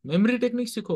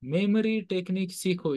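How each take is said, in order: First: memory stressed, quick and bright; prompting line. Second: memory stressed, said slower with a falling end; slower repeat. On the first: Teacher cueing the class to repeat, brisk. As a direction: toss out memory technique सीखो as a cue. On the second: Teacher repeating the answer for the class, slower. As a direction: spell out memory technique सीखो deliberately. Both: Shown as a demonstration. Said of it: "What's the word?".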